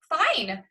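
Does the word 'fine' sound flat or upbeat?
upbeat. The word sounds bright and upbeat. The day was pretty decent. "Sounds pretty decent"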